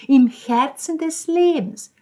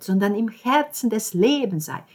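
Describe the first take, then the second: First: „im Herzen des Lebens“ mimicked higher, louder, slower; imitating the landlady. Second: Said in the usual way. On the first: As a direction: quote „im Herzen des Lebens“ in her gushing voice, slowly. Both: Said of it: "Genau so hat sie es gesagt".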